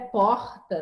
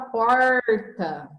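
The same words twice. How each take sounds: First: The r is said the Rio way. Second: The r is said the local way. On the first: "no Rio de Janeiro é porta" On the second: "E aqui a gente fala porta"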